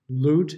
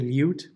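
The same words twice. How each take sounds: First: The vowel is said without a y glide. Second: The vowel is said with a y glide.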